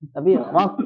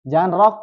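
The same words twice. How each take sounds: First: Rock ending in a deep throat qaf, not a k; correct deep qaf. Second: Rock said with a hard kaf-like k at the end, louder; wrong hard k. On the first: Teacher giving the correct rock ending on qaf. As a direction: sound rock's last letter far back as qaf. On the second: Teacher showing the wrong rock, ending on kaf. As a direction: clip rock off with a hard k as the mistake. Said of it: "Itu huruf, itu huruf kaf". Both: Shown as a demonstration.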